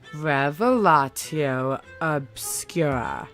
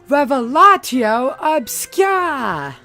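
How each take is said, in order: First: It is said slowly and with focus. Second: It is said fast and wildly.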